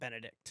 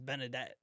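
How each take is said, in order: First: The name ends with a 'dikt' sound. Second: The name ends with a 'det' sound. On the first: The speaker calls it wrong. "and not Benedict" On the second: The speaker calls it right. "his name is Benedette"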